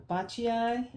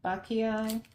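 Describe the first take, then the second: First: Bacchiai with a "ch" sound, BAH-chee-eye; tentative pronunciation. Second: Bacchiai with a hard "k", BAH-kee-eye; alternative pronunciation. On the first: Unboxer trying out a hard plant name, Bacchiai said with "ch". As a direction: sound out Bacchiai slowly, "ch" in the middle. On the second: Unboxer trying out a hard plant name, Bacchiai said with hard "k". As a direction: try Bacchiai again with a "k" in the middle. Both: Shown as a demonstration. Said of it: "I know it's one I can't s".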